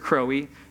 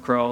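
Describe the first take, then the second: First: The name is said with two syllables. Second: The name is said with one syllable. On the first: The speaker calls it wrong. "they pronounce it very literal" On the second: The speaker calls it right. "No, it's Crow, like Russell"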